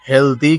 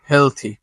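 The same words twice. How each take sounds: First: Healthy with a d, HEL-dee; wrong pronunciation. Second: Healthy with a th, HEL-thee; correct pronunciation. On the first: Teacher warns against this form, wrong pronunciation. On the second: Teacher corrects the d form, correct pronunciation. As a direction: say healthy with "th", falling. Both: Shown as a demonstration. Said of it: "কিন্তু বলবো না".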